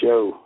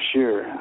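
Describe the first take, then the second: First: The word sounds like 'show', with no r. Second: The word sounds like 'shur', with an r. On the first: The speaker calls it right. "I didn't know I was supposed to say show" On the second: The speaker calls it wrong. "I said, "Sure.""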